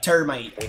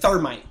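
First: The word begins with a plain t sound. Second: The word begins with a th sound. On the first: "Why in Ireland you guys don't pronounce the H in a T-H? It's like termite" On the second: "in America, we say termite"

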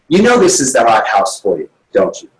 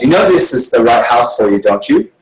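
First: The voice falls at the end. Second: The voice rises at the end.

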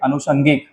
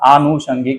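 First: The first vowel is a short a. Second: The first vowel is a long aa. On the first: The speaker calls it wrong. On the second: The speaker calls it right.

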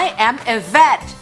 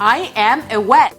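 First: Vet starts with a clear V sound. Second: Vet starts with a W-like sound. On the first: The speaker is a veterinarian. The speaker calls it right. "เสียงตัว, V" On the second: The speaker is saying they are wet. The speaker calls it wrong. "กลายไปว่าฉันน่ะเปียกแล้ว"

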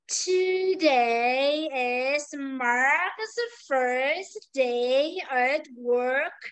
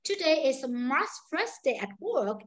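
First: The sentence is spoken at a very slow pace. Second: The sentence is spoken at a fast pace. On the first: "Tiếp tục là cô đọc chậm nữa cho bạn nghe này" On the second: "ví dụ câu nói nhanh này"

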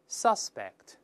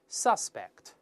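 Both takes have the same delivery.

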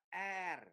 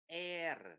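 First: The vowel sounds like an 'a'. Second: The vowel sounds like an 'e'. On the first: The speaker calls it right. "đọc là are" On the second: The speaker calls it wrong. "air là sai nha các bạn nha"

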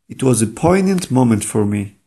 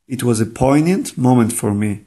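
Both takes have the same delivery.

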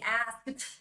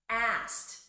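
First: The word ends with a pushed D sound. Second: The word ends with a T sound. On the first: The speaker calls it wrong. "So do not push the D there" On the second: The speaker calls it right. "You have to replace the D sound or the ED there with a T sound"

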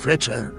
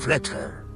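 First: The middle sound is like 'ch' in church. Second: The middle sound is a breathy 'h'. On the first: The name is read by English rules. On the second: The name is read by native-language rules.

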